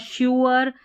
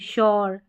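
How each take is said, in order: First: The word splits into two syllables, 'shyoo-er'. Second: The word is one gliding syllable, 'shyor'. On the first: The speaker calls it wrong. "प्यूअर या श्यूअर या एश्योर नहीं" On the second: The speaker calls it right. "इस तरीके से pronounce करते हैं तो सही"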